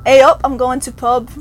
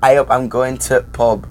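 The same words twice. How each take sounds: First: Canadian-flavoured try at Yorkshire. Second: A up, I'm going to pub with a Yorkshire ay oop and pub with a short u; Yorkshire A up, dropping the before pub. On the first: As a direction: attempt at Yorkshire A up, I'm going to pub. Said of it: "You still hear that, like, Canadianism". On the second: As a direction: model the Yorkshire line for her. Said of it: "teach you how to ... in Yorkshire". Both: Shown as a demonstration.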